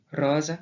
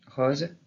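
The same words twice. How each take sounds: First: Rose in Gascon, open O and light final vowel; "rose" with open O, ending lightly sounded. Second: Rose with an open O; "rose" as in the South of France, vowel open; southern French open O. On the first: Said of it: "Et en gascon, de la même façon". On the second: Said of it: "Même dans le français parlé dans le Sud". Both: Shown as a demonstration.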